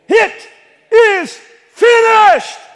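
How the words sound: It is said triumphantly, like a victor.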